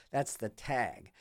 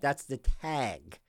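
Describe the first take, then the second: First: "That's the tag" dropped much softer and slow; softer, slow repeat. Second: Said in the usual way. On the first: Real, not acted. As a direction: let it fade to a soft, slow aside.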